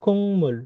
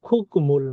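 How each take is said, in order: First: "কুংমুল" with ng before m, high then falling; nasalised pronunciation. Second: "খুকমুল" with a hard k before m; unchanged pronunciation. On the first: Teacher answering with the changed sound, nasalised pronunciation. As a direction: hum the ng in "কুংমুল" and let it fall. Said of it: "এটার উচ্চারণ কি হবে". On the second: Teacher quizzing learners on the written form, unchanged pronunciation. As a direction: keep the k stop in "খুকমুল". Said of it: "না হয়ে এটার উচ্চারণ কি হবে". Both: Shown as a demonstration.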